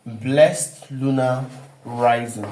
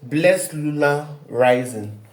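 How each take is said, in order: First: Each word of "Blessed Lunar Rising" drawn out slowly; slow and deliberate, for dictation; slow, spelled-out title. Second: Said in the usual way. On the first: Shown as a demonstration. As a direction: lay the title down word by word, much slower. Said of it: "we have what we call Blessed Lunar Rising".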